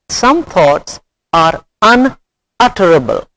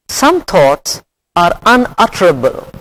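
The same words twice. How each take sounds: Both takes have the same delivery.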